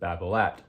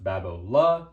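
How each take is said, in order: First: The final T is pronounced. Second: The final T is silent. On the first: This is the familiar, non-French way. "I did not grow up learning it like that, so I still pronounce it Babolat" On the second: This is the original French way. "it is technically pronounced Babolat. You don't pronounce the T"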